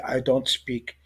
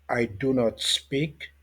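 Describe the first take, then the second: First: The negative is contracted into one syllable. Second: The negative is said in full as two words. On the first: This is how it is normally said. "on dit I don't speak" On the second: It is spoken slowly so learners can follow. "on essaie juste de parler lentement pour que les gens comprennent"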